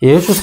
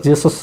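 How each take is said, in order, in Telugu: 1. ఈ పేరు Y శబ్దంతో మొదలవుతుంది. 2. ఈ పేరు J శబ్దంతో మొదలవుతుంది. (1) "అది యేసుస్ అని చదవాలి" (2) "మనం జీసస్ జీసస్ అని చదువుతాం, కానీ యాక్చువల్గా జీసస్ కాదు"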